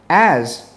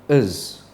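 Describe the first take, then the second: First: The word is said with a full vowel. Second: The word is said with a weak, reduced vowel.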